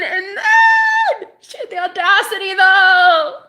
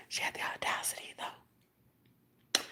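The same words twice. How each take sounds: First: High, loud, drawn-out shout; outraged shriek. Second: Hushed, voiceless outrage; whisper. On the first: Outraged at her audacity, high drawn-out shout. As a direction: wail it slowly at full volume. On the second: Outraged at her audacity, whispering. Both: Real, not acted.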